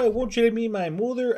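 It is spoken in a Wisconsin accent. "Wisconsin like"

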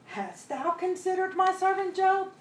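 It sounds protective, in disbelief anyone would harm Job.

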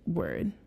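The pitch falls at the end like a statement. It states something. "the other one, the statement"

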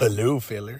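It sounds weird and creepy.

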